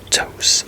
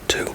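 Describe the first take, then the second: First: The vowel sounds like 'oh' with a final s. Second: The vowel sounds like 'oo' with no final s. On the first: "how this is pronounced in Spanish is tos" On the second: "in French it's two, like T, pronounced like T O O"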